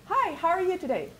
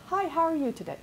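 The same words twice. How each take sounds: First: Much higher, bright and engaged hi; warm friendly greeting. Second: Said in the usual way. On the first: Shown as a demonstration. Rick greeting people on the phone, warmly and higher. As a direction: greet the stranger like you really care. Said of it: "he says it not just". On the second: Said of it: "Everybody calls".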